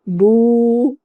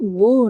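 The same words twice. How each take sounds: First: The vowel is drawn out long. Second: The vowel is cut short. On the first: The speaker calls it right. "बल्कि बू, तू, सू इतनी आवाज़ हम खींचेंगे" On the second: The speaker calls it wrong. "अब हम इसको बू नहीं पढ़ेंगे"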